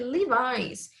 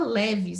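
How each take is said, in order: First: The name is said the English way. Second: The name is said the Brazilian Portuguese way. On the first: The speaker calls it right. "a pronúncia correta é Levi's" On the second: The speaker calls it wrong. "Todo mundo fala leves"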